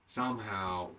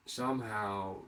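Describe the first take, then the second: No difference in how they are said.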